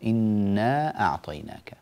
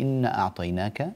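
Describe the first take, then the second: First: The first word ends with a held long vowel. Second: The first word is clipped short, with no vowel. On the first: The speaker calls it right. "انتبهي يا بني لي إنا أعطيناك" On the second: The speaker calls it wrong. "لا تقولي إن أعطيناك"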